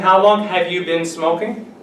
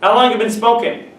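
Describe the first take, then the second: First: It is said slowly with every word fully pronounced. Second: It is said fast with reduced, run-together words. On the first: "Instead of saying" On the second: "But you hear it"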